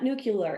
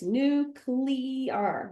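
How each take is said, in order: First: The middle does not sound like 'nucleus'. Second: The middle sounds like the word 'nucleus'. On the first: The speaker calls it wrong. "It's not nuclear" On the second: The speaker calls it right. "It's nuclear, right? Because it has to do with the nucleus"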